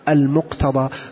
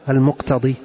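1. تنتهي الكلمة بصوت 'a' طويل. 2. تنتهي الكلمة بصوت 'i' طويل. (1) "على زنة اسم المفعول، قل المقتضى" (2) "لا تقل المقتضي"

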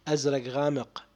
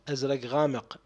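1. يُنطق بلفظ اللهجة العراقية. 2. يُنطق بلفظ اللهجة العراقية.

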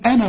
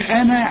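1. الحركة الأخيرة مقطوعة وقصيرة. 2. الحركة الأخيرة ممدودة وطويلة. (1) "إلغي الألف" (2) "ما تقولش أنا عند الوصف"

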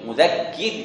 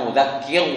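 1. Bunyi r di akhir itu tipis, bibir melebar. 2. Bunyi r di akhir itu tebal dan berat. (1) "Terakhirnya itu mesti seperti senyum nih" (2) "bukan mudhakkir"

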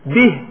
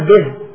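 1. الحركة بعد الهاء ممدودة. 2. الحركة بعد الهاء قصيرة. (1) "إشباع الكسر عند القراء لا بد من الإشباع" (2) "لا تقول به"

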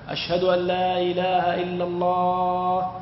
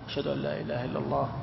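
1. تُقال العبارة بصوت مرتفع. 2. تُقال العبارة بصوت منخفض. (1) "ترجع بصوت مرتفع" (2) "صوت منخفض أولا"

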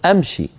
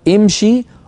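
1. الحرف الأول مفتوح بصوت 'a'. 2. الحرف الأول مكسور بصوت 'i'. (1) "في العامية يقولون أمشي أدخل، هذه لا تصح" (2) "في الفصيح نقول امشي"

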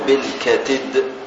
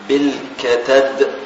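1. يأخذ الحرف الأوسط حركة 'i'. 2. يأخذ الحرف الأوسط حركة 'a'. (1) "وكسرها" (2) "بفتح التاء"

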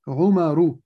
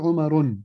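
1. تنتهي الكلمة بدون صوت نون زائد. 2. تنتهي الكلمة بصوت نون زائد. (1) "أقول عمر" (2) "لا أقول عمر"

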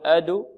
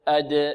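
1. ترتد الدال إلى حركة الضمة. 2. ترتد الدال دون أن تليها أي حركة. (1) "لا نقول أدو" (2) "لا تميل لا إلى فتح ولا إلى كسر ولا إلى ضم"

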